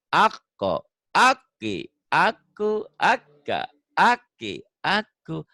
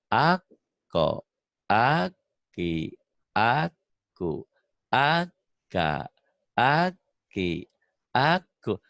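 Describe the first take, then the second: First: The syllables are recited with energy and spirit. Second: The syllables are recited slowly and without energy. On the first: It has spirit. The speaker calls it right. "Ada semangatnya gitu" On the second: It makes the listener sleepy. The speaker calls it wrong. "Tapi kalau ngajarin aku di sini, ya aku ngantuk akunya nih"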